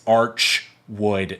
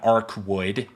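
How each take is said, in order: First: The first part ends in a 'ch' sound. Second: The first part ends in a 'k' sound. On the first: The speaker calls it right. "it's archwood" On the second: The speaker calls it wrong. "not arcwood"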